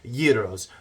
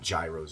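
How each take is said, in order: First: It uses the Greek-style pronunciation. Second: It uses the local American pronunciation. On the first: This is the proper original pronunciation. "I think is how you would pronounce it" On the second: This is how people say it locally. "I call them gyros over here"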